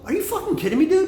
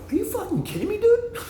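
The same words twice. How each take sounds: First: Mock disbelief. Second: Very high squeaky disbelief through a laugh; laughing mock outrage. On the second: Retelling his comeback to the Irish friend, laughing and squeaking high. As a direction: crack up while faking outrage. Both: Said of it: "I go".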